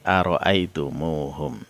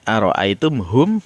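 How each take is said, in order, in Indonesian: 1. Vokal u tambahan menyambungkan huruf mim ke akhiran. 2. Akhiran mengikuti huruf mim tanpa tambahan vokal.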